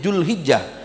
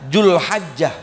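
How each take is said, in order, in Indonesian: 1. Vokal setelah h adalah i. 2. Vokal setelah h adalah a. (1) "mengkasrohkan huruf haknya" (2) "memfathahkan huruf haknya"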